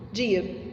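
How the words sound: The word is said short and quick. This is how it sounds in São Paulo. "Lá em São Paulo, eles falam rapidinho"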